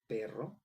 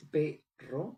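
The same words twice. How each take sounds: First: Said in the usual way. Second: "perro" split into two syllables, rising on the second; syllable-by-syllable demo. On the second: Shown as a demonstration. Teacher showing where the accent falls, "perro" split by syllable. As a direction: break "perro" in two, pausing before a lifted "rro". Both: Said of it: "el acento prosódico recae en la segunda sílaba".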